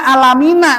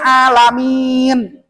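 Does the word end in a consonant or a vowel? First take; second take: vowel; consonant. First: The word ends with an added vowel sound. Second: The word ends on a consonant sound. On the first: The reading runs on as if not pausing. The speaker calls it wrong. "Nggak dibaca alamina" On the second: The reader pauses at the end of the verse. The speaker calls it right. "kalau wakop"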